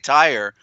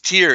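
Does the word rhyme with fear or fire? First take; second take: fire; fear. First: The word rhymes with fire. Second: The word rhymes with fear. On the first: The speaker calls it wrong. "They never pronounce it right. They say tire" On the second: The speaker calls it right. "but it's tear"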